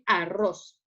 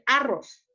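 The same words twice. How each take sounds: First: The stress is on the last syllable. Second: The stress is on the first syllable. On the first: The speaker calls it right. "vamos a decir arroz" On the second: The speaker calls it wrong. "No vamos a decir arroz"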